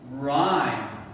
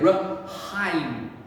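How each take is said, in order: First: The word is said without any H sound. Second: The word is said with an H sound. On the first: The speaker calls it right. "The H is a silent H" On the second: The speaker calls it wrong. "We do not say"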